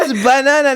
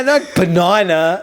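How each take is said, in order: First: "banana" said with an open ah in the middle, baNAHna; "banana" as bah-NAH-nah; her own banana. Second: "banana" said slowly with a flat short a, buh-NAN-uh; "banana" said the rejected way, slowly; drawn-out "banana" with a short a; the other banana. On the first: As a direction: stress "banana" with a broad ah vowel. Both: Shown as a demonstration.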